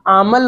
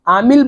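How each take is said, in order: First: The second vowel sounds like 'a'. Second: The second vowel sounds like 'i'. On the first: "या आमल बोलो" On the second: "आमिल बोलो"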